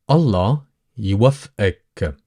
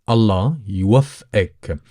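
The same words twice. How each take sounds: The two takes are said the same way.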